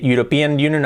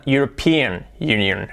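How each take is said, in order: First: "European Union" with Spanish-flavoured vowels; imitated learner pronunciation. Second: "European Union" slowly, in careful English sounds; slow English-style "European Union"; corrected pronunciation. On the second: Shown as a demonstration. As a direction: model "European Union" with a clear stressed PE. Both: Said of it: "Cambia de decir".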